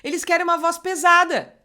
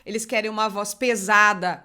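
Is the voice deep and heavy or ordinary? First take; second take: ordinary; deep. First: It is said in an ordinary speaking voice. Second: It is said in a deep, heavy voice.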